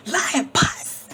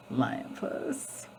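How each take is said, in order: First: Lion Puss proclaimed high and loud; called out name. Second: Lion Puss whispered softly; whispered name. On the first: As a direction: announce Lion Puss like a summons. Calling out the cat's name. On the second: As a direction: breathe Lion Puss under your breath. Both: Acted.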